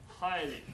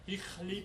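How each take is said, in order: First: An 'eye' vowel with no throaty sound. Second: A short 'i' vowel with a throaty 'ch' sound. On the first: This is how the word is said today. "Heichli became highly" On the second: This is how the word was said in the Middle Ages. "highly would be pronounced Hichli"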